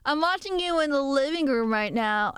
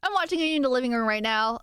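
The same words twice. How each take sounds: First: A lightly put-on creepy watcher; mock-menacing line to the viewer; creepy stalker voice. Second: Said in the usual way. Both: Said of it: "I don't know why I made you have that voice".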